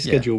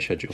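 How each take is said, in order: First: The word begins with a k sound. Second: The word begins with an sh sound. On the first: This is how it is said in this country. "We say schedule with a K" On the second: This is how Americans say it. "whereas Americans would say schedule"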